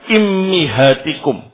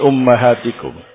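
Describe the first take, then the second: First: The word begins with i, then i. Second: The word begins with u, then a. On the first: "Hamzahnya atau alifnya di kasrah, mimnya di kasrah juga" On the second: "bi dhammil alif wa fathil mim"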